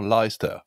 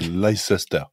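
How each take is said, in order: First: The name is pronounced the usual English way. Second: The name is pronounced the way it is spelled. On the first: The speaker calls it right. "on dit tout simplement Leicester" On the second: The speaker calls it wrong. "n'arrivent pas du tout à prononcer son nom. Ils disent Leicester. Parce que ça s'écrit comme ça"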